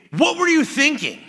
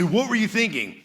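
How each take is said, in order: First: High, loud exasperated father; imitated harsh dad demanding an answer; upset dad. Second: Milder retelling of dad's rebuke; father's question retold more calmly; imitating dad. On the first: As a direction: snap at the impulsive son. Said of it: "he would get really upset". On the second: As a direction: lighter quote of the same question. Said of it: "He'd say".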